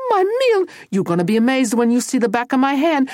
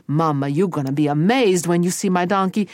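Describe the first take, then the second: First: High, loud scolding mother; shrieky, fast maternal threat; angry Mama. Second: Said in the usual way. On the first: Acted. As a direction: threaten him like a fed-up mama. Furious Mama threatens Tony.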